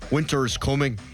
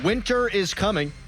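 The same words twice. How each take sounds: First: It is said in a dramatic Game of Thrones voice. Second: It is said in a normal speaking voice.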